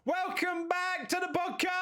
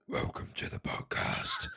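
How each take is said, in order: First: It is said in a high-pitched voice. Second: It is said in a deep Batman voice.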